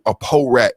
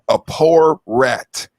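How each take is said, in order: First: The word 'poor' is clipped and mumbled. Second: The word 'poor' is said fully and clearly.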